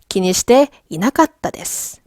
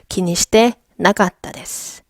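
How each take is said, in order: First: The 'i' after 'shite' is pronounced. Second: The 'i' after 'shite' is dropped. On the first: This is the form that follows the grammar. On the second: This is how it is said in real conversation.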